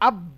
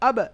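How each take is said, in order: First: The final consonant stops flat without an echo. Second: The final consonant bounces with a light echo. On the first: The speaker calls it wrong. "এরকম না হয়ে" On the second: The speaker calls it right. "কিন্তু ইকো হবে হালকা"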